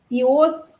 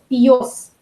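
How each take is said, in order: First: The ending is said without a y sound. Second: The ending is said with a y sound.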